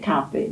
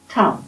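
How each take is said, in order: First: The word ends with a full final vowel. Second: The word is clipped, without a final vowel. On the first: This is how the speaker's own community says it. "like we say kaffe" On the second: This is how the Swedish Finnish people say it. "they'd say kaffes. Kaff. Not finish the word"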